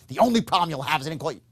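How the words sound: It is said with intense, emphatic force. The speaker calls it wrong. "that's not sincerity"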